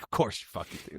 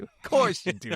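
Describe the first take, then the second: First: Whispered, fed-up aside; exasperated whisper. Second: Jumps much higher, exasperated; mock exasperation. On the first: Retold or imitated. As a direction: breathe it out in disbelief under your breath. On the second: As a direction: throw it up high in mock disbelief. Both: Exasperated reply to friend.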